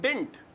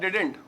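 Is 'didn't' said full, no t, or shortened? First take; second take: shortened; full. First: It has one syllable ending in t. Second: It has two syllables, did-ent. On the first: "बड़ा ही short करके मैं देख रहा हूं" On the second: "असल contraction ये है डिडेंट"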